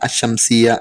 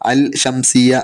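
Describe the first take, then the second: First: The L is silent and the next consonant doubled. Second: The L is clearly pronounced before the next consonant. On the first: The speaker calls it right. "അഷംസിയ എന്നാണ് പറയുന്നത്" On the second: The speaker calls it wrong. "അൽ ഷംസിയ എന്നല്ല"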